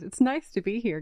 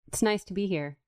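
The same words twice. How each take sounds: First: It is said in a put-on podcast-guest voice. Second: It is said in her natural voice.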